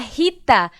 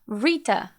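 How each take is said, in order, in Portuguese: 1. É dita com pronúncia portuguesa. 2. É dita com pronúncia do inglês americano. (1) "no português a gente fala Rita" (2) "No inglês, provavelmente vai ser um Rita"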